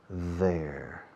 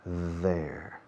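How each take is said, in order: Both takes have the same delivery.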